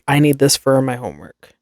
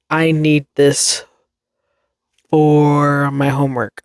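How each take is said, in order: First: The word for sounds like fur. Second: The word for sounds like four. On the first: The speaker calls it wrong. "Why are you saying fur?" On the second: The speaker calls it right. "instead of saying for"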